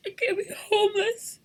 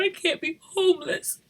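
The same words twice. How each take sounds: First: Pitched up desperate plea; pleading, voice climbing. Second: Said in the usual way. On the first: Real, not acted. Mother fearing homelessness, desperate plea.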